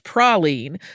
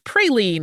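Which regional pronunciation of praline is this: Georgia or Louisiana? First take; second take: Louisiana; Georgia. First: The word is said the Louisiana way. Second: The word is said the Georgia way. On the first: "If you visit Louisiana, for example, you are likely to hear it as praline" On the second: "in places like Georgia or Tennessee and others, praline is a bit more common"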